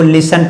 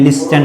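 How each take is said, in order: First: "लिसन" with no t after the s; "लिसन", the t left silent. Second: "लिस्टन" with the t sounded; "लिस्टन" with a hard t after s; wrong pronunciation. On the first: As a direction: say "लिसन" as LIS-un. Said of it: "इसको लिसन पढ़ते हैं, लिस्टन नहीं". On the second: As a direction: say "लिस्टन" as LIS-tun, voicing the t. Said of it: "लिस्टन नहीं". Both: Shown as a demonstration.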